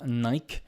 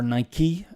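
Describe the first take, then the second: First: The name is said the non-American way. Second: The name is said the American way.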